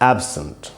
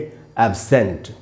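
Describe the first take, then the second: First: The stress is on the first syllable. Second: The stress is on the second syllable. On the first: It is used as an adjective or preposition. "ए पर ही रुक रहे थे" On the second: It is used as a verb. "अब हम सै में जो ए है उस पर ज़्यादा रुकेंगे"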